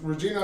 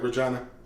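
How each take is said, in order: First: The name is pronounced the usual way. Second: The name is pronounced in a distorted way. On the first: "if someone told me their name was Regina" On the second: "mispronounce whatever name they give me"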